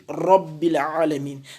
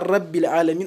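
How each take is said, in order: First: The R is heavy and emphatic, with a full sound. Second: The R is light, with no emphasis. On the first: The speaker calls it right. "on dit" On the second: The speaker calls it wrong. "On ne dit pas"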